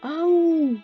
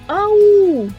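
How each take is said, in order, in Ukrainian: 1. Слово вимовляють тихо. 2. Слово викрикують голосно. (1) "ми станемо відлунням і промовимо ау тихо. Ось так" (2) "давайте з вами покричимо так, як цей хлопчик, голосно"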